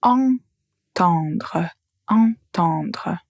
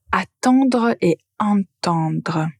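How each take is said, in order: First: "Entendre" said twice with a nasal "en" at the start; teacher modelling the nasal sound of "entendre"; pronunciation demo. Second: "attendre et entendre" slowly, setting the open "a" of "attendre" against the nasal "en" of "entendre"; slow it down so the two first syllables clearly differ; teacher modelling "attendre" and "entendre" side by side; pronunciation demo. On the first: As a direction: open the word on the nasal "en" of "entendre". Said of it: "vous avez la nasale". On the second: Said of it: "concernant la prononciation". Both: Shown as a demonstration.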